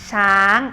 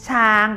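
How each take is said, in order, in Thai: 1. เป็นเสียงสูง ขึ้นไป 2. เป็นเสียงกลาง ราบเรียบ (1) "ช้างเป็นเสียงตรี" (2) "ช้างเป็นเสียงสามัญ"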